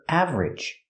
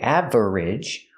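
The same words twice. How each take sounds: First: The word is said with two syllables. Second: The word is said with three syllables. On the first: The speaker calls it right. "we make it two syllables" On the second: The speaker calls it wrong. "We don't make it three syllables"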